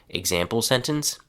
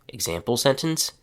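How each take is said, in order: No difference in how they are said.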